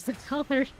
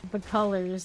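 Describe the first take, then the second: First: Higher wondering repeat. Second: Said in the usual way. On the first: Real, not acted.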